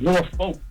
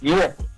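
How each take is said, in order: First: Every letter is sounded, including the l. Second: The letters are reduced, as local speakers say it. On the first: The speaker calls it wrong. "It ain't Norfolk" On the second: The speaker calls it right. "It's Norfolk"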